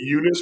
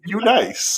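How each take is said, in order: First: The name ends with a short 'niss' sound. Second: The name ends with a long 'nice' sound. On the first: This is how the speaker says the name. "I'm pronouncing it Eunice" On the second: This is how the show says the name. "they saying U nice"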